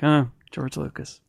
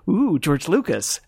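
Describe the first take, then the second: First: It sounds flat and unimpressed. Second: It sounds impressed and excited.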